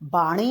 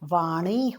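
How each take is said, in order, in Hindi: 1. शब्द 'b' ध्वनि से शुरू होता है। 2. शब्द 'v' ध्वनि से शुरू होता है। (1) "नहीं होता है" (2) "होता है"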